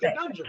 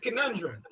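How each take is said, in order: First: The word is pronounced in a mangled way. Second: The word is pronounced in the standard way. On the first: Someone is using a word beyond their vocabulary. The speaker calls it wrong. "when it comes out of Unc's vocabulary" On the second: This is the normal pronunciation. The speaker calls it right. "The the the standard is conundrum"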